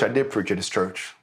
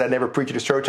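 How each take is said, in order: First: "did" pressed hard, softer overall; stress on did. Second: Said in the usual way. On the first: Shown as a demonstration. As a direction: lean on "did" as a quiet triumph.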